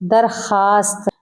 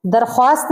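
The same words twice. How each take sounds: First: दरखास्त said darkhaast, no w, slowly; silent w. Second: दरख्वास्त with the w said, darkhwaast; w sounded. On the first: Teacher giving the right reading, w silent. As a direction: drop the w in दरखास्त. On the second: Teacher showing the wrong reading with the w sounded. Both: Shown as a demonstration. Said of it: "दरख्वास्त नहीं होता".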